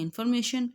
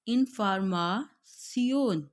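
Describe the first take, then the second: First: इन्फॉर्मेशन with English "shun" ending, quick; tossed-off English इन्फॉर्मेशन; English इन्फॉर्मेशन, not German; English pronunciation. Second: इन्फॉर्मेशन as German "in-for-ma-tsion", slow; German इन्फॉर्मेशन, not English; German pronunciation. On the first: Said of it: "English में हम कहते हैं इन्फॉर्मेशन". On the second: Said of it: "German में है हम इसको read करेंगे". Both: Shown as a demonstration.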